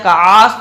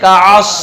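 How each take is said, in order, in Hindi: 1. ऐन के बाद वाला स्वर लंबा खींचा जाता है। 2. ऐन के बाद वाला स्वर छोटा रखा जाता है। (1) "ऐन को खींच के, तब भी गलत है" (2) "ना काफ खींचेंगे ना आयन खींचेंगे"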